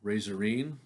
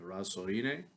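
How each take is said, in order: First: The name is said with English-style sounds. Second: The name is said with Italian-style sounds. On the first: "I'll call it Razorine" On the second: "the uh, proper Italian pronunciation, I'm sure, would be"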